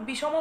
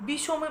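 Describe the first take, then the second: The two takes are said the same way.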